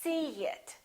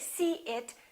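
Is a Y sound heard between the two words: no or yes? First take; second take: yes; no. First: A small Y sound joins the two words. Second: The words are said with no Y sound between. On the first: The speaker calls it right. "we put a little Y, a little Y sound" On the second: The speaker calls it wrong. "So we don't say see it"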